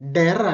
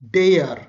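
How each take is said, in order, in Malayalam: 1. സ്വരം ഹ്രസ്വവും പെട്ടെന്ന് മുറിഞ്ഞതുമാണ്. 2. സ്വരം ദീർഘവും നീണ്ടതുമാണ്. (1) "ഡെർ അല്ല"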